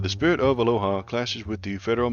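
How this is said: It is said in a put-on Hawaiian accent.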